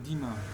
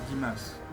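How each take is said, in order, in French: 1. Le nom se termine sans son s final. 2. Le nom se termine par un s final bien audible.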